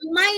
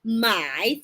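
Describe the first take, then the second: First: It is said with a non-dipping tone. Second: It is said with a dipping third tone. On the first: It means to sell. "Yung my natin na cell" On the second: It means to buy. "the my third intonation"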